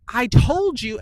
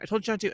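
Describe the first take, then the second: First: Loud, high outburst on TOLD; losing it. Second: Said in the usual way. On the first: Retold or imitated. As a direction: snap into an exasperated parent's yell. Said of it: "then you're screaming". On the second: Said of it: "And finally you're like".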